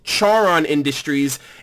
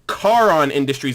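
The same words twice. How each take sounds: First: The name begins with a 'ch' sound. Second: The name begins with a 'k' sound. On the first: The speaker calls it wrong. "It's actually not pronounced" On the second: The speaker calls it right. "It's pronounced"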